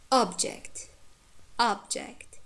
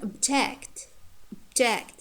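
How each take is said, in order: First: "object" as a noun, stressed OB-ject; careful citation "object" with full opening vowel, OB strong; stress on first syllable. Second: "object" as a verb, stressed ob-JECT; careful citation "object" with weak start, strong JECT; stress on second syllable. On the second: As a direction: reduce the first vowel of "object" to schwa, hit JECT. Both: Shown as a demonstration. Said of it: "The same words in different grammatical categories".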